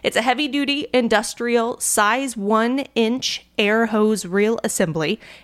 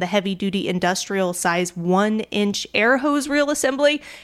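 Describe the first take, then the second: First: It is said slowly. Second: It is said fast.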